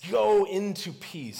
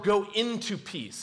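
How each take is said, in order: First: "Go into peace" slow, stress on "Go"; "Go" held, then "into peace"; slow emphasis. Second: "go into peace" drawn out, stress on "go"; "go" held long, "into peace" following; slow emphasis. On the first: Acted. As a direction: invite her gently, slowly. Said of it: "He says". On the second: Shown as a demonstration. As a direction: land on "go" slowly. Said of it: "the phrasing is actually a little more".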